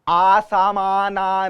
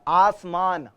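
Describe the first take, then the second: First: Extra vowels are added, ending in 'na'. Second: No extra vowels are added, ending in 'n'. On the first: The speaker calls it wrong. "आसामाना नहीं है" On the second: The speaker calls it right.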